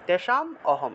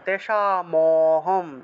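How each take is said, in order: First: The words are split after the m. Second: The m links straight into the next word. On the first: "যদি আপনারা মটাকে ভাঙেন তাহলে তেষাম অহম" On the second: "একসাথে বলতে হবে তেষা মহম"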